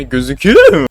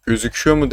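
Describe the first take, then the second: First: "gözüküyor" shooting up high and loud; "gözüküyor mu" with a leaping, cracked pitch; voice-crack replay. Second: Said in the usual way. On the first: Shown as a demonstration. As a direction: exaggerate the cracked squeal on "gözüküyor". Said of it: "Sesime ne oluyor lan?". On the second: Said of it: "demek yerine gözüküyor mu".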